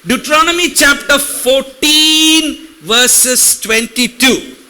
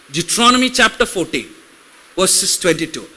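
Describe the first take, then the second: First: Slow, drawn-out verse reference; slow deliberate scripture reference. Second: Quick rattled-off verse reference; fast scripture reference read. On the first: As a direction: stretch the citation out slowly for the congregation. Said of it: "If I go slow". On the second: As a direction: rush through the citation fast. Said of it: "Will it help if I go slow or will it help if I go fast?". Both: Shown as a demonstration.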